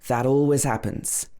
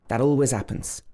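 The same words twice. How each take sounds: The two takes are said the same way.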